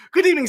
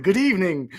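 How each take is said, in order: First: Much higher and louder, reading out a viewer's greeting; greeting read aloud in a lifted mock voice; high voice for a chat message. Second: Said in the usual way. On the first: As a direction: pitch it way up to voice the commenter. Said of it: "says Reverend Shin".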